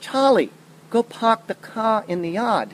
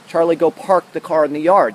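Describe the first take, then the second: First: It is said in a Boston accent, dropping R. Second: It is said in a general, non-Boston accent.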